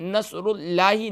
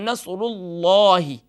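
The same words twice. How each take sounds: First: The l of Allah sounds thin and light. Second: The l of Allah sounds heavy, with a full mouth. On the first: The speaker calls it wrong. "हम यहाँ नसरुल्लाही नहीं पढ़ेंगे" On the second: The speaker calls it right. "अल्लाह के लाम को full mouth और मुंह को भर कर पढ़ेंगे"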